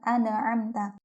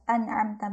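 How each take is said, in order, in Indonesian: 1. N dipantulkan dengan tambahan bunyi vokal. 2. N ditahan diam tanpa vokal. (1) "bukan ... kayak diberi harokat gitu ya, dan seperti memantul" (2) "seharusnya harus jelas"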